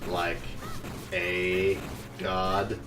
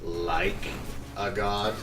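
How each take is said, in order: First: The word 'god' carries the stress. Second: The word 'like' carries the stress.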